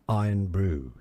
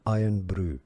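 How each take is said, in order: First: It is said with a general British accent. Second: It is said with a Scottish accent.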